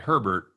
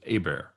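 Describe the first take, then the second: First: The h and final t are sounded, English style. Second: The h and final t are silent, French style. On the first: "why do they pronounce it Herbert" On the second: "it was Abair"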